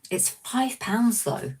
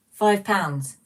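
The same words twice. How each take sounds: First: Pounds stretched out slowly and pitched high, falling at the end; slow, high, incredulous complaint about a price; drawn-out outrage at the price. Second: Five hit hard and louder, then pounds falls away; louder, punchy echo of the price; indignant repeat. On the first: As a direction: draw out It's five pounds though in slow disbelief. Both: Real, not acted. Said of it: "That's just extortionate".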